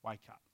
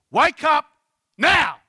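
First: Soft, low pastoral plea; hushed tender appeal; loving, compassionate. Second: Very loud, high commanding shout; two forceful bursts, pitched way up; authoritarian shout. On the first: Real, not acted. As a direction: say it gently, with all the love you can. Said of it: "every piece of love I can possibly muster". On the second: Retold or imitated. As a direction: shout it as a cross order. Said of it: "sounds very authoritarian".

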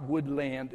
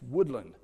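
First: Woodland as wood-LAND, full vowel in "land"; mispronounced Woodland. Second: Woodland as WOOD-lund, falling away; local pronunciation. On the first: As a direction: stress the second syllable of Woodland. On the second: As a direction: stress only the first syllable of Woodland. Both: Retold or imitated. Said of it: "putting the emphasis on the wrong syllable".

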